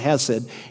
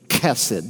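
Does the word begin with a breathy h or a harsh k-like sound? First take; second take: breathy h; harsh k. First: The word begins with a soft breathy h. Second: The word begins with a harsh k-like sound. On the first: The speaker calls it wrong. "People mispronounce it all the time. It's not hesed" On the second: The speaker calls it right. "it's kesed"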